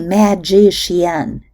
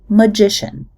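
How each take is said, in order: First: The unstressed vowels keep their full quality. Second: The unstressed vowels are reduced to schwa. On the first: The speaker calls it wrong. "We don't say" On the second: The speaker calls it right. "we say magician. The unstressed vowels in the first and third syllables become neutral schwas"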